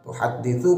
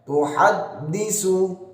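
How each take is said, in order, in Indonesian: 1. Konsonan terakhir adalah bunyi 'th' yang lembut. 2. Konsonan terakhir adalah bunyi 's' yang biasa. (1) "Tuhadditsu pakai ta ya" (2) "jangan sampai pakai tuhaddisu"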